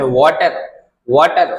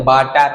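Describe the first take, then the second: First: वाटर said carefully as "water", not "baatar"; correct pronunciation. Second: वाटर said as "baatar", with a b sound and a dropped r; वाटर the desi way, "baatar"; local Hindi pronunciation. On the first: Teacher models the right way, वाटर as "water". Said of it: "तो वाटर नहीं बोलना है". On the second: Teacher shows students the common wrong way, वाटर as "baatar". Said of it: "अपने तो यहाँ क्या बोलते हैं?". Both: Shown as a demonstration.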